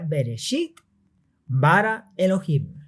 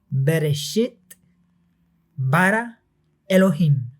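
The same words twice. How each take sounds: First: It is said at normal speed. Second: It is said slowly.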